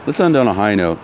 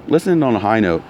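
The two takes are said the same way.

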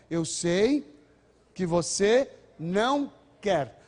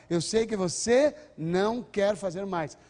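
First: "não quer" stretched and stressed, very slow. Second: Você pushed and drawn out, slow; slow, firm reassurance with você stressed. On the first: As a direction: hold a pause after Eu sei, then lean hard on não quer. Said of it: "não quer é a ênfase". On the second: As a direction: lean on você, slowly. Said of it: "como é que a gente fala?". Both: Shown as a demonstration.

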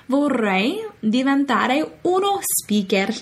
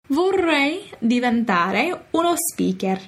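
First: Slow, "speaker" said the Italian way, spi-ker; Italian-accented speaker. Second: Slow Italian "speaker", spi-ker; Italian-accented speaker. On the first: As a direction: pronounce "speaker" like an Italian loanword, slowly. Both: Shown as a demonstration. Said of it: "Another English word put into Italian accent".

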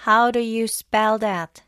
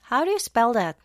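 First: Slow "How do you spell that", each word stressed; emphatic teaching stress. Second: Said in the usual way. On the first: Shown as a demonstration. Teacher models "How do you spell that" for learners, slow and emphatic. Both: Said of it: "강세를 좀 더 세게".

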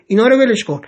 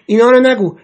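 First: Loud and higher, still irritated; angry, pressing on. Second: Sharp and loud, pitched higher; angry. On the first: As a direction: brush it aside, annoyed. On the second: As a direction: snap it out in anger. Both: A narrator's reading. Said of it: "پریتسا با عصبانیت گفت".

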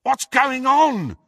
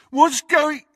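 First: High, drawn-out shout; shouted question. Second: High, loud mocking echo, cut off; mocking mimicry. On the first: Ron calls to Harry beyond the wall, shouting. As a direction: shout slowly through a wall. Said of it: "shouted Ron again". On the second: Crabbe mocks Ron's question, mimicking. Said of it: "mimicked Crabbe". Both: A narrator's reading.

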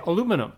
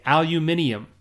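First: American "aluminum", stressed on LU, four syllables; pronuncia americana. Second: British "aluminium", al-yu-MIN-i-um, stressed on MIN; pronuncia britannica. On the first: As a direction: say "aluminum" the US way, a-LU-mi-num. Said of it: "In the U S, I s-, we would say". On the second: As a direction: say "aluminium" the English way, five syllables. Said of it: "If you go to England, they say". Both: Shown as a demonstration.

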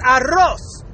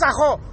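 First: "arroz" slowly with a trilled double R; rolled R. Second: Mocking "ajo" with a guttural middle; throaty R. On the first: Shown as a demonstration. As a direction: roll the R hard in "arroz". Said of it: "You know, it's arroz". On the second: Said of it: "what the fuck is ajo?".

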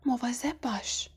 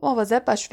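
First: Soft, hushed «مواظب باش»; quiet warning. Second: Fully voiced, smirking «مواظب باش»; sneering warning. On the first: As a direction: murmur a warning under the breath. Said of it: "و آهسته گفت". (آهسته هشدار دادن) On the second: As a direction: warn a rival with a sneer. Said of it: "مالفوی پوزخندی زد و گفت". (با پوزخند هشدار دادن) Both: A narrator's reading.

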